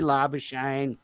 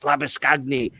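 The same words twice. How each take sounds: First: The name is said with Anglicized Australian sounds. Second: The name is said with Afrikaans-style sounds. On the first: The name is adapted to local Australian usage. The speaker calls it right. "We're in Australia. Just call me Labuschagne" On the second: The speaker is showing off knowledge of the name's origin. The speaker calls it wrong. "the real sort of commentators that like to think they're really smart would dig in and go"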